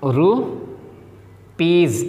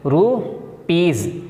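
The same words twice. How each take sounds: First: रूपीज drawn out very slowly, ending on a long z; slow classroom demo of रूपीज; slow z sound. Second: रूपीज said slowly with a final z; repeating रूपीज slowly for the class; slow z sound. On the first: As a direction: stretch रूपीज syllable by syllable. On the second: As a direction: draw out रूपीज and end on z. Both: Shown as a demonstration. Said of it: "जेड यानी जा की आवाज़ निकलेगी".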